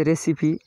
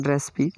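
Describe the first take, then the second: First: रेसिपी in three syllables, "re-si-pi"; full three-syllable pronunciation. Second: रेसिपी squeezed to "res-pi"; shortened "correct" pronunciation. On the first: Teacher showing learners the spelt-out word, रेसिपी said fully as "re-si-pi". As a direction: sound the middle "si" in रेसिपी. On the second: Teacher giving learners the preferred form, रेसिपी shortened to "res-pi". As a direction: drop the middle vowel of रेसिपी: "res-pi". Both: Shown as a demonstration. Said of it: "सही उच्चारण रेसिपी".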